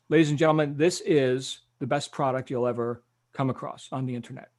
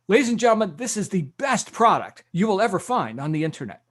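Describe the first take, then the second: First: It is said in a normal, conservative way. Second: It is said in an exaggerated, energetic way.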